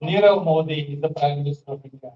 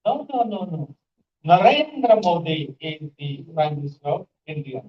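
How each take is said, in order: First: Said in the usual way. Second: Highlight "Narendra" to contradict, then fall away; contrastive stress on Narendra. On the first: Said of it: "So this is called sentence stress". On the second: Shown as a demonstration. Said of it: "So you highlight that particular word".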